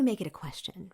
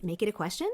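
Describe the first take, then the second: First: "question" drops at the end, as a statement; falling statement tune. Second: "question" lifts upward at the end; rising question tune. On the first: Coach contrasting vocal tones, "question" falling like a statement. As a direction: bring "question" down instead of lifting it. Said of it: "or do we make it a question". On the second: Coach showing vocal tone, voice rising on "question". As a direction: go up on "question", as if asking. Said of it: "go up at the end of a sentence". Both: Shown as a demonstration.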